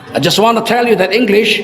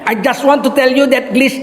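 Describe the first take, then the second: First: It is spoken with an English accent. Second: It is spoken with a Madurese accent. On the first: The speaker calls it right. "enaknya tuh bahasa Inggris, logat Inggris" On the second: The speaker calls it wrong. "bahasa Inggris logat Madura"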